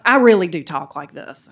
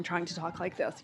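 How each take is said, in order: First: Louder, full natural Southern drawl. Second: Put-on code-switched non-Southern accent. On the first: Shown as a demonstration. Speaker owning how they really talk, Southern drawl. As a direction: let the Southern accent out proudly. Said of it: "I hear my Southern drawl coming out". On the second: Southerner showing how they used to code-switch in DC, non-Southern accent. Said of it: "code switching that I did".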